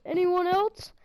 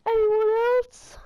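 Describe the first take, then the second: First: Lightly voiced hero dare with a rising end; a quicker, milder "Anyone else?" with the pitch lifting; Thor's line. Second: Slow, higher dramatic challenge; Thor's line. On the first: Retelling the hero's knockdown line to viewers, mild mock dare. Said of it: "knocks down the guy and says". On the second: Retold or imitated. Hero taunting the crowd after a knockdown, slow dramatic challenge. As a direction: stretch out "Anyone else?" like a movie hero daring the room. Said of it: "one of the Thor movies".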